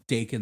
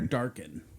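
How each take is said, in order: First: No extra sound comes before the k. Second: An r sound is added before the k. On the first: This is the name's real form. The speaker calls it right. "it's Dakin like bacon" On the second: Other people say the name this way. The speaker calls it wrong. "or Darkin"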